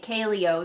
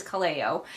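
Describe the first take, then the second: First: Kaleo said KAY-lee-oh; wrong syllable stressed. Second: Kaleo said kuh-LAY-oh; corrected pronunciation. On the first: Vlogger admits her habitual mistake, Kaleo as KAY-lee-oh. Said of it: "putting the emphasis on the wrong syllable". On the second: Vlogger passes on a commenter's correction, Kaleo as kuh-LAY-oh. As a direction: stress the middle syllable of Kaleo, kuh-LAY-oh. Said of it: "actually it is Kaleo". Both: Shown as a demonstration.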